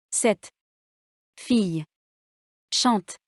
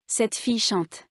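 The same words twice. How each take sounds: First: Cette, fille, chante said as separate words, each stressed, long pauses between. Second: Cette fille chante run together, final stress on chante; one phonetic word. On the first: Teacher showing written words one at a time, word by word. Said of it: "Faites attention à l'accent tonique". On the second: Teacher showing students a phonetic word, Cette fille chante linked in one breath. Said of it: "contiennent un seul mot prononcé". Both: Shown as a demonstration.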